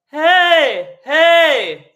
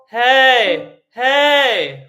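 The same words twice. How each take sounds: First: It is said high with a bright tenor sound. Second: It is said at a middle baritone pitch.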